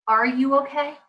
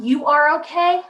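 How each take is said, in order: First: "Are you okay" as an open question; caring question. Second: Slow, insistent "You are okay"; dismissive statement. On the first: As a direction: ask it gently, leaving room to answer. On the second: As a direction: tell the child "You are okay", as a verdict. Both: Shown as a demonstration. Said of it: "how about this?".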